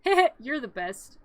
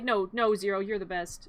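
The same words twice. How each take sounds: First: Lightly voiced pal with a little chuckle first; admiring dog sidekick. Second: Affectionate reply. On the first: Zero praising Jack, lightly mock admiring. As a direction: say it slowly, a touch hammed-up. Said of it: "And Zero's like". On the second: Retold or imitated. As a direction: gently hand the praise back, leaning on "you're". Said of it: "And I'm like".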